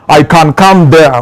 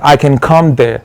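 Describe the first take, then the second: First: It is said with a Kenyan accent. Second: It is said with a non-Kenyan accent. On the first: "in Kenya ukisema" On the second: "ukiwa hivi like"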